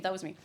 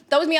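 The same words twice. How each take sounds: First: Softer, lower throwaway repeat; quiet aside. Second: Louder, higher mock-proud claim; playful boast. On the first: Pretend. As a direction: mutter it to yourself. Repeats the claim afterwards. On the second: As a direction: brag it cheekily. Jokingly claims credit for bits.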